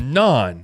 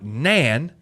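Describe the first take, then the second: First: The vowel sounds like the one in father. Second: The vowel sounds like the one in cat. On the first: The speaker calls it right. "it's non, you know, non solo, Han Solo" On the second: The speaker calls it wrong. "it's not nan"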